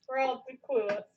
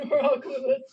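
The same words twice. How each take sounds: First: Said in the usual way. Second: Laughing through the words. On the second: Real, not acted. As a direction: burst into laughter saying it. Repeats it laughing.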